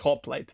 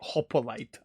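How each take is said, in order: First: No vowel is heard between p and l. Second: An extra vowel is heard between p and l. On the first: The speaker calls it right. "but it is Hoplite, definitely. There's no O" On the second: The speaker calls it wrong. "Or as Execute would say"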